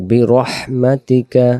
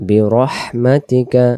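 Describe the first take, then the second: Both takes have the same delivery.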